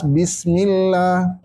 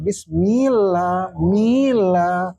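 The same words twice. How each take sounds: First: BISMILLAH steady, L held without sway; firm double L in "bismillah"; clear doubled L. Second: "bismillah" with MIL swung up and stretched into an extra vowel; over-swung syllable. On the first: Teacher giving students the correct reading, clear held L. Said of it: "Jadi harus jelas". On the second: Teacher warning students against swaying, vowel swung long. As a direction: swing and lengthen the mi in "mila". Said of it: "jangan sampai nimbulin harokat". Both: Shown as a demonstration.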